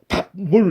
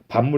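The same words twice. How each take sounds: First: The first syllable ends in a stop p sound. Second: The first syllable ends in a nasal m sound. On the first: The speaker calls it wrong. "이렇게 발음하면 안 되잖아요" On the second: The speaker calls it right. "이렇게 발음되잖아요"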